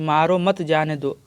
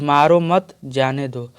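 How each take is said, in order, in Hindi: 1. 'maaro' के बाद विराम है। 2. 'mat' के बाद विराम है। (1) "अब जब यही अल्प विराम यहाँ पर लगा दिए" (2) "अल्प विराम हम यहाँ पर लगा दिए"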